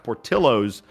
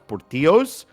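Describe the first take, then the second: First: The name is pronounced in an English way. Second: The name is pronounced in a Spanish way. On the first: This form was chosen so it is easy for Americans. "to make it more Americanized" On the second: This is the name in its original form. "he was worried that Americans would not be able to pronounce Portillos"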